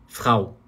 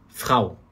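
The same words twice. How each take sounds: No difference in how they are said.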